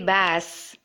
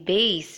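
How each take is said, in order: First: The vowel differs from the one in base. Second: The vowel matches the one in base. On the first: The speaker calls it wrong. "It shouldn't be bass" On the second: The speaker calls it right. "just like how you would pronounce the word B A S E"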